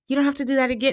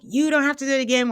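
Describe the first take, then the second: First: It is said in a calm, plain tone. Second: It is said in a confrontational, animated tone.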